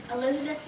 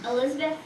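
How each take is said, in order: Both takes have the same delivery.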